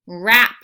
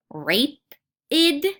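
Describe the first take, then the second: First: Rap-id. split into rap and id, short A; split into syllables. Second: Rapid? said ray-pid with a long A; wrong long-A rapid. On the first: Reading teacher sounding out the correct short-A rapid. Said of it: "Does that sound better?". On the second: Reading teacher sounding out a wrong long-A rapid. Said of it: "No, that does not sound right". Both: Shown as a demonstration.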